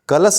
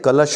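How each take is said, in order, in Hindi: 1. शब्द साधारण 's' ध्वनि पर खत्म होता है। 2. शब्द सीटी जैसी 'sh' ध्वनि पर खत्म होता है। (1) "कलश नहीं होगा" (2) "ये साधारण सा न होकर के कलश होगा, सीटी वाला सा होगा"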